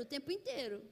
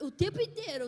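First: "o tempo inteiro" let fall, dropping away; fading repeat. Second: "o tempo inteiro" punched high and loud; stress on tempo. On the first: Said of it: "repeated, fading". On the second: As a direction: hit "tempo" hard, first of three. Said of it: "repeated for emphasis". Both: Acted.

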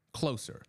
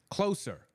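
First: Stern. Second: Closer yelled much higher, a sharp raised command. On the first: Prisoner ordering the trainee to bring her badge, stern. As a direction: order "Closer" sternly, not raising the voice. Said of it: "he says sternly". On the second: Prisoner yelling at the trainee to come nearer, sharp yell. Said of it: "he yells". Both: Acted.

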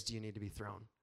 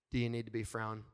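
First: Said in the usual way. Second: "frown" said with an f in place of thr, a playful lisp; baby-talk "frown" instead of thrown; cute mispronunciation. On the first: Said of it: "That means". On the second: Retold or imitated. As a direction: say "frown" for thrown, teasing his wife. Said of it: "That means, "Do you need to be thrown?".

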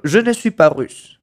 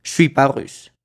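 First: "Je ne suis pas russe" with "ne" clearly said; full French negation. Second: "Je suis pas russe" with no "ne", "je suis" run together; casual spoken "Je suis pas russe"; everyday French "Je suis pas russe", no ne; dropped ne. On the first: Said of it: "como cuando digo". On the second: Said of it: "muy común escuchar frases como". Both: Shown as a demonstration.

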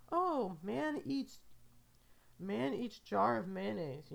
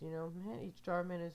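First: Slow, higher, louder newsreader voice; hammed-up headline about the mayonnaise man; mock news headline. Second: Said in the usual way. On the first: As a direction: read it like a breaking news anchor. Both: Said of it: "I imagine that's what the news story is".

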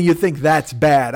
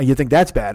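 First: Slow, drawn-out mimicking quote; mock repetition in exasperation; mocking echo. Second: Said in the usual way. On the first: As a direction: throw his words back at him slowly. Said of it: "don't give me any 'You think that's bad.'". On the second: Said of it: "And he goes".

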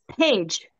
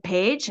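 First: Said in the usual way. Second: "Paige" with a rising questioning tune; questioning echo. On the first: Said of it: "she looks at it and she says". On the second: Retold or imitated. Storyteller checking the name her friend read out, questioning. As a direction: repeat "Paige" back as a question. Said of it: "And I said".

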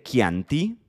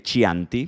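First: "Chianti" said "KIAN-ti" with a hard k; Italian pronunciation. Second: "Chianti" said "CHIAN-ti" with a Spanish ch; Spanish reading. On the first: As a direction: start "Chianti" with a hard k sound. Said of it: "también podríamos decirle". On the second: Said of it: "también podríamos decirle Chianti". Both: Shown as a demonstration.

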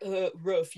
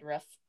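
First: "Uh, roof" mocked with a barky "ruff" vowel; mocking "roof". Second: "roof" said the way she says it, close to "ruff"; her own "roof". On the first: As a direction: bark "roof" back at her like a dog. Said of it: "you sound like a dog". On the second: Shown as a demonstration. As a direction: say "roof" with a short open vowel, like "ruff". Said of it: "he made fun of the way I said".

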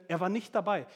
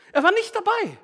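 First: Said in the usual way. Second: "Er war nicht dabei." much higher and louder, ringing out; emphatic preaching. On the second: Shown as a demonstration. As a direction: proclaim "Er war nicht dabei." at full force.

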